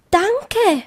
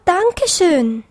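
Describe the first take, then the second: First: High, falling bunny thanks; a touch of overwhelmed bunny; stammered thanks. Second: High bunny voice, falling away; a touch of overwhelmed gratitude; stammered thanks. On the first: Bunny thanking the rainbow, lightly stammered. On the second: Bunny thanking the rainbow more fully, lightly stammered. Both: A narrator's reading. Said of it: "stammelte Tips".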